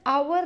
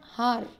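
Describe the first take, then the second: First: The word starts with a vowel sound. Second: The word starts with a sounded h. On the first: The speaker calls it right. "We pronounce it as hour" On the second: The speaker calls it wrong. "not har"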